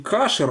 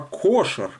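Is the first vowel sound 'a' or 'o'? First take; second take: a; o. First: The first vowel is an 'a' sound. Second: The first vowel is an 'o' sound. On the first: The speaker calls it wrong. "не кашер" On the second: The speaker calls it right. "а кошер"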